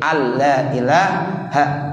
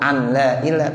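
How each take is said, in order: First: The n merges into a doubled l. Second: A separate n is heard before la. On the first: The speaker calls it right. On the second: The speaker calls it wrong.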